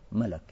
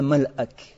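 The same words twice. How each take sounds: First: The word is said in a simplified form. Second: The word is said in its full form. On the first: This is the form people use for simplicity. "Просто для упрощения говорят, что маляк" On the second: This is the original form of the word. "На самом деле это маляк"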